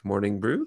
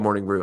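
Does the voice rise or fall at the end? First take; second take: rise; fall. First: The voice rises at the end like a question. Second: The voice falls at the end like a statement. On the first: The speaker sounds unsure of the name. The speaker calls it wrong. "I went up in my inflection there, like Morning Brew, question mark" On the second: The speaker is sure of the name. The speaker calls it right. "I'm confident of that"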